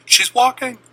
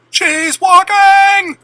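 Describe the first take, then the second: First: Loud, high burst of joy; parents screaming. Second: Very high, loud, drawn-out slow shout; full screaming. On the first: Parents seeing their daughter walk, a high joyful cry. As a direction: cry it out in shocked delight. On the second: Parents watching their daughter walk, drawn-out ecstatic scream. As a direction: stretch the scream out in disbelief. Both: Retold or imitated. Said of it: "My parents started screaming".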